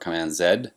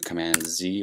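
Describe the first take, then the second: First: The letter Z is said the Canadian way. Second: The letter Z is said the non-Canadian way.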